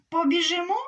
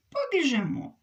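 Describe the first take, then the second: First: Rising question, louder and higher; eager question. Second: Falling, settled answer; calm agreement. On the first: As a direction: ask it eagerly, voice going up. Hare eagerly asks to race. (запитання з висхідною інтонацією) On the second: Hedgehog calmly agrees. (спокійна відповідь зі спадною інтонацією) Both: Acted.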